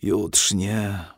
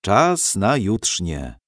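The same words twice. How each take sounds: First: Drawn-out, reluctant echo; mildly disgusted groan of a word; grimacing distaste. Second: Slow, gentle summons; unhurried, kindly wake-up. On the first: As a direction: repeat it with a sleepy wince. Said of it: "skrzywił się". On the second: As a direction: gently announce it, drawing the words out. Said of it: "odezwał się łagodny głos". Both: A narrator's reading.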